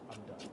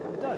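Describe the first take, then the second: First: Low and much softer, worn out; defeated mutter. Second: Sharp, loud and high; exasperated outburst. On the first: Gamer giving up on Tekken mutters defeated. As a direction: let it sink, beaten. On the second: Gamer fed up with Tekken blurts out loudly. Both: Real, not acted.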